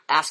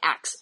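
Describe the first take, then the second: First: The word ends with the sounds s then k. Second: The word ends with the sounds k then s. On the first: "when they say ask you a question" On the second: "they say ax"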